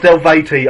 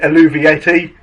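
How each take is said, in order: First: The name is said with fewer syllables. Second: The name is said with more syllables. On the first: The speaker calls it right. "It's it's pronounced Elvati" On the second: The speaker calls it wrong. "I pronounced it Alluviati"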